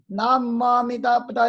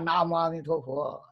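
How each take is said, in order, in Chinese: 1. 第五个音节念'da'。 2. 第五个音节念'tuo'。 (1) "那个陀也不念陀，念哒。……这是古梵音" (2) "我们这都中文化了。"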